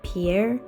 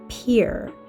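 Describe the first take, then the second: First: The name does not sound like 'peer'. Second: The name sounds just like 'peer'. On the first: The speaker calls it wrong. "I pronounced the capital city's name incorrectly" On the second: The speaker calls it right. "as in peer through the window"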